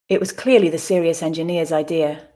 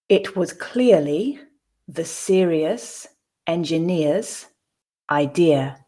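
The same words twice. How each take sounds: First: The sentence is said at a natural pace. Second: The sentence is said slowly and carefully. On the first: "I'll then repeat it twice at a more natural pace" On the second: "the first time slowly for you to grasp the words and the meaning"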